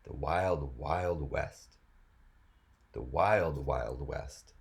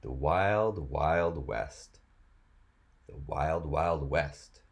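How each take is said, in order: Both takes have the same delivery.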